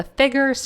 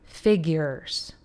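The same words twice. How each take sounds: First: "figures" in rural American speech; country accent. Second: "figures" drawn out slowly; "figures" slowly enunciated for those needing a translation; translated pronunciation. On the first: Real, not acted. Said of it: "I'm a country girl, so if you need a translator". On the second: Shown as a demonstration. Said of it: "if you need a translator, that's figures".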